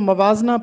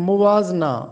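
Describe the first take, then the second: First: The first vowel is 'a'. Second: The first vowel is 'u'. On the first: The speaker calls it wrong. "मीम पर ज़बर के साथ" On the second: The speaker calls it right. "जबकि दुरुस्त लफ्ज़ है मुवाजना"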